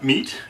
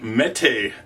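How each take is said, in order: First: The word sounds like 'meat'. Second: The word does not sound like 'meat'. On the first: The speaker calls it wrong. "not meat, even though it's spelled meat" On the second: The speaker calls it right. "Mete is a pronunciation"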